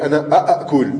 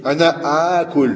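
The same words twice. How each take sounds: First: Two separate glottal stops are pronounced in a row. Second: The two glottal stops merge into one long vowel. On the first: The speaker calls it wrong. "Tu dirais ana a'akul, akada. Mais ça se dit pas" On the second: The speaker calls it right. "Ils ont joint les deux hamza ensemble"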